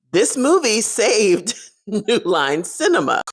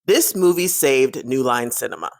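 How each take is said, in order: First: High, slow, each part of "This movie saved" punched; amused disbelief, hammering "This movie saved"; spaced-out "New Line Cinema" with a laugh before it; emphatic repeat. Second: Said in the usual way. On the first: Real, not acted.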